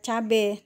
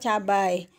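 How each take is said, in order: First: The word ends with a plain e vowel. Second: The word ends with an ai diphthong. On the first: It is the everyday informal form. The speaker calls it wrong. "dalam bahasa keseharian kan kita sering menyebutkannya ya atau mengucapkannya" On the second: It is the standard form. The speaker calls it right. "yang baku itu adalah cabai"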